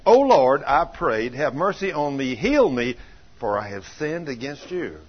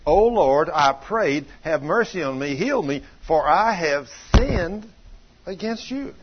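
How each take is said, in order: First: Said in the usual way. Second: "sinned" drawn out slowly, then a rising "against you"; stress on sinned. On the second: Shown as a demonstration. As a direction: lean hard on "sinned" and leave it hanging like a question. Rereads verse, pointing to the sin.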